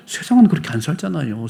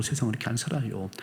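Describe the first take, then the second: First: Said in the usual way. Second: Softer restatement. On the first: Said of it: "repeated statement, first take". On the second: Real, not acted. Preacher restating quietly to congregation, much softer. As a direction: say it again much softer, resigned. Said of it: "repeated statement, second".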